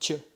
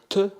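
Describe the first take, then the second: First: The t is softened, lighter, like tch. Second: The t is hard and strongly pronounced. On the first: "C'est plus léger, on va adoucir la lettre" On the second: "au lieu de dire te"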